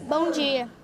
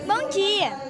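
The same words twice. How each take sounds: First: It is said in an angry, irritated tone. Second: It is said in a friendly, pleasant tone.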